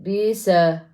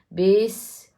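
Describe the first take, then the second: First: The final consonant bounces with an added vowel. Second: The final consonant stops cleanly without echo. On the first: The speaker calls it wrong. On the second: The speaker calls it right.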